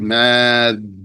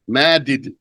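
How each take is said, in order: First: The two d sounds merge into one doubled d. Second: The two d sounds are separated by a vowel. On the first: The speaker calls it right. "You say Mad" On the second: The speaker calls it wrong. "But you don't say Madid"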